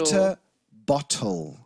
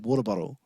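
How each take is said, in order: First: The middle consonants are crisp T sounds. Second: The middle consonants are soft D sounds. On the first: This matches how the words are spelled. "is how it's spelled" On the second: This is how people here actually say it. "but we say water bottle. That's a D and a double D"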